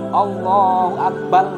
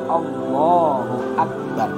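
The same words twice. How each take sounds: First: Akbar ends with an l sound. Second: Akbar ends with an r sound. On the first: The speaker calls it wrong. "Ro jadi lam" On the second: The speaker calls it right. "Intinya bacaan takbir itu Allahu Akbar"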